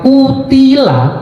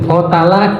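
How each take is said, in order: First: The vowels are u, i, a: qutila. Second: The vowels are a, a, a: qatala. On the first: He was killed. "ketika dibaca kutila, dia dibunuh" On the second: He killed someone. "Kotala, dia membunuh"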